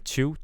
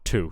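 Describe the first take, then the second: First: The t is palatalized, close to ch. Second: The t is plain, not palatalized. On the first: The speaker calls it wrong. "this like almost palatalized t" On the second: The speaker calls it right. "but I want tu"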